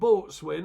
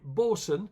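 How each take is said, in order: First: It is said in full as boat-swain. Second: It is said as the short form bosun. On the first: The speaker calls it wrong. "not boatswain as people do pronounce it" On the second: The speaker calls it right. "Bosun as in the Navy term"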